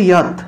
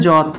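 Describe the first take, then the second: First: The word begins with a y sound. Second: The word begins with a j sound. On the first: The speaker calls it right. "উচ্চারণ হবে ইয়াত" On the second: The speaker calls it wrong. "বাংলায় বললে যত"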